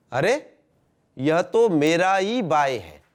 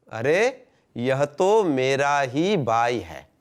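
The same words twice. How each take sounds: First: "अरे" rising, a pause, then a slow "यह तो मेरा ही बाय है" falling at the end; changed intonation, first take. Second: "अरे" rising, then "यह तो मेरा ही बाय है" very drawn out and falling; changed intonation, second take. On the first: Teacher shows how delivery changes meaning, first take with "अरे" rising and a livelier slow fall. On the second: Teacher shows how delivery changes meaning, second take with "यह तो मेरा ही बाय है" slower and lower. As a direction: stretch every word of "यह तो मेरा ही बाय है" after a lifted "अरे".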